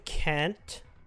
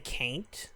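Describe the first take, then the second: First: The word is said with its plain, standard vowel. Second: The word blends in a vowel like in 'ain't'. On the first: "instead of saying can't" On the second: "I would say can't. Because it, you know, it's can and ain't"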